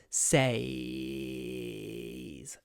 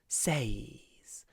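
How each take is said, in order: First: The vowel is said with a croaky voice. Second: The vowel is said with a breathy voice. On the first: "The y I pronounce with croaky voice" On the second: "But you can also pronounce it with breathy voice"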